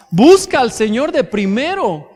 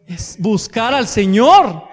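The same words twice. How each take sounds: First: Said in the usual way. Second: Each word of es buscar al Señor laid down slowly, leaning on Señor; slow it down to drive home buscar al Señor; slow emphasis. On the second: Shown as a demonstration. Pastor urging the congregation, slow and emphatic.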